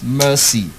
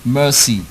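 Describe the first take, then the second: Both takes have the same delivery.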